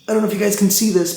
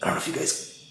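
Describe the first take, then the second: First: Said in the usual way. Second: Breathy whisper. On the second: Real, not acted. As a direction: start it in a whisper. Whispering, then repeats in normal voice.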